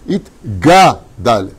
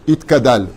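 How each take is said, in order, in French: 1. Le mot se prononce avec un son G. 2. Le mot se prononce avec un son K. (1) "C'est Itgadal. C'est un gimel. C'est pas un kouf" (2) "Tout le monde dit Itkadal"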